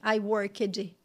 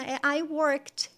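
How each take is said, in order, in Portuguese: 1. A terminação é falada como uma sílaba extra. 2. A terminação é falada como um som curto de t. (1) "você não vai falar o ed, ... que nem a gente teria a tendência de falar no português" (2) "ela me corrigiu"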